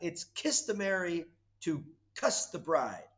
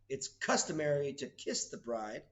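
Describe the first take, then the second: First: The verb is said with an 'uh' vowel, like 'cuss'. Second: The verb is said with an 'ih' vowel, like 'kiss'. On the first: The speaker calls it wrong. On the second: The speaker calls it right.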